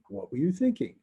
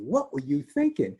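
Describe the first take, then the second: First: It sounds calm and curious. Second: It sounds angry and accusing.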